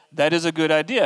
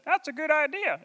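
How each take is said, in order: First: Said in the usual way. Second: Much higher, cartoonish vegetable chorus; VeggieTales vegetable voice. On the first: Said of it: "And the people said". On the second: The crowd of people agreeing, in a high cartoon vegetable voice. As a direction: squeak it like a cartoon gourd. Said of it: "the people's voices as ... characters from VeggieTales".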